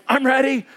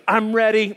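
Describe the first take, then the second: First: Higher, lightly voiced wide-awake kid; raised-pitch mock eager daughter; anti-sleepy voice. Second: Lightly voiced wide-awake kid; a hint of an eager little girl; anti-sleepy child. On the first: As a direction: imitate an eager child, not a bit sleepy. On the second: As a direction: imitate a child who's already awake. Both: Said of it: "Like, anti-sleepy voice".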